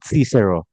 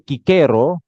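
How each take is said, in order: First: The name begins with a soft S sound. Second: The name begins with a hard K sound. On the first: This is how English speakers say it. "dalam bahasa Inggris ada yang sebut Cicero" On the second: This is the original Latin pronunciation. "pengucapan aslinya adalah Kikero"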